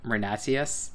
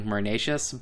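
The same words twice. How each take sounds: First: Marnatius said as meer-NAH-tee-us; tentative corrected Marnatius, ending in tee-us; probable correct pronunciation. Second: Marnatius said as mur-NAY-shus; habitual reading pronunciation. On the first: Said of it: "it's probably, like, Marnatius". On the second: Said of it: "in my head, I've been, like, doing". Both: Shown as a demonstration.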